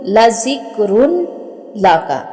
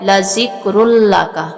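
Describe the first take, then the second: First: The n sound is clearly pronounced before l. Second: The n sound merges into a doubled l. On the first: "ये लिखने में लाजिक्रुन लाका ही लिखा जाएगा" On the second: "आगे लाम के ऊपर शद है"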